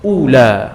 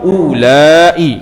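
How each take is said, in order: First: A short ending vowel with no glottal catch. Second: A long vowel and a glottal catch before final i. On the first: "Qasar ni tanpa hamzah. Ula. Ha dua harakat lah" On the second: "bil maddi"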